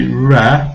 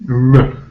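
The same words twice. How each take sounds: First: "re" with a clear full "eh"; full vowel. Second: "R" as a short weak "ruh"; schwa. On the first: Teacher showing the mistake, first syllable fully pronounced. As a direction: say re as a strong "reh". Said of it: "we certainly don't say re". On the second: Teacher isolating the unstressed syllable, short schwa. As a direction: clip R to r plus a tiny neutral vowel. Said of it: "we call it the schwa sound". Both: Shown as a demonstration.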